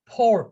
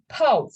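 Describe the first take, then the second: First: "pour" with the final R sounded; rhotic R. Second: "pow" for pour, ending on the vowel; non-rhotic, R dropped. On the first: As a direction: end "pour" on a clear R. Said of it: "different way in rhotical". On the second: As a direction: say "pow" with no R at the end. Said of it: "in non-rhotical, you say". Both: Shown as a demonstration.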